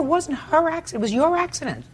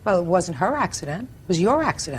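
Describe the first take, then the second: First: Much higher, sharper, "her" and "your" hammered; exasperated repeat. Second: "her" and "your" pushed out, contrasted; stress on her and your. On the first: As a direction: fire it back, hitting "her" and "your". Judge repeats, now much sharper. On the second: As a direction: lean on "her", then on "your". Judge corrects the defendant. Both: Real, not acted.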